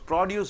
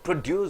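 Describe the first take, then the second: First: The stress is on the first syllable. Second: The stress is on the second syllable. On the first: It is used as a noun. "Produce is a noun" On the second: It is used as a verb. "When you stress on deuce, it becomes a verb"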